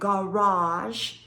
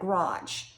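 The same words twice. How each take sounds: First: The word is pronounced carefully and clearly. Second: The word is pronounced loosely, in a regional way.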